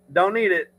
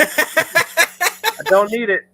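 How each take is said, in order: First: Said in the usual way. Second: High, slow, stretched-out refusal; drawn-out dismissive. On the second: Acted. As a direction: draw out each word, waving it away. Dismissing Mardi Gras, drawn out.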